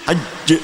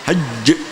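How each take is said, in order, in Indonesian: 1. Konsonan akhir ditekan dengan tengah lidah. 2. Konsonan akhir ditekan dengan tengah lidah.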